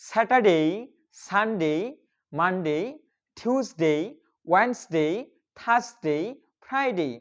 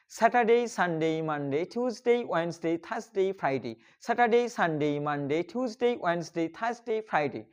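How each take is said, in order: First: One day at a time with pauses; practice drill. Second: Days chained without pauses, falling away at each week's end; in one breath. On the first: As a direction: model each word separately for learners to repeat. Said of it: "চলুন আমার সাথে practice করতে". (একটি একটি করে থেমে অনুশীলনের উচ্চারণ) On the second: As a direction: rattle off the week as a connected chant. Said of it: "আমরা এক নিঃশ্বাসে". (এক নিঃশ্বাসে টানা বলা) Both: Shown as a demonstration.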